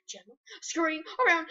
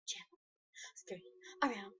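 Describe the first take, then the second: First: Said in the usual way. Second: Soft breathy whisper. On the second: Real, not acted. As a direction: whisper it secretively. Whisper then normal repeat.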